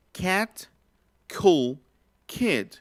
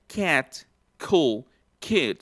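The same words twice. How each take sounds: First: Put-on "cat, cool, kid" with the k released in a burst of air; aspirated k. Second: Put-on "cat, cool, kid" with a puff of air after each k; aspirated k. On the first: Teacher reads the example words with aspirated k. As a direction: aspirate each k clearly. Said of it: "dice aquí". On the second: Teacher demonstrates the aspirated k words. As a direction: breathe out after the k sound. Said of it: "Esta otra también". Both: Shown as a demonstration.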